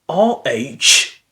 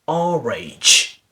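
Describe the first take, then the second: First: The words are joined without any r sound. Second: An r sound links the two words.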